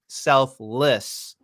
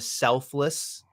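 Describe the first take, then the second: First: The word is drawn out slowly. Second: The word is said at a normal pace.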